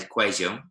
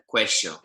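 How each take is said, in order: First: The double L sounds like a soft j. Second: The double L sounds like sh. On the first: This is how people in Medellin say it. "in Medellin, they kind of make a bit of a J kind of noise" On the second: This is how people in Argentina say it. "if you go to places like Argentina, they make a sh noise"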